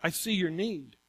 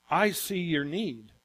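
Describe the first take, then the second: First: "see" carries the weight, softly falling; quiet, stress on "see". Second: "I" leaned on, slow and deliberate; slow, stressed "I". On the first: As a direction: land on "see" in "I see your need". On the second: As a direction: dwell on "I" in "I see your need", slowly. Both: Shown as a demonstration.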